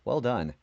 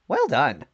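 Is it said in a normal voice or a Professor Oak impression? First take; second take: normal voice; Professor Oak. First: It is said in his normal voice. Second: It is said imitating Professor Oak's voice.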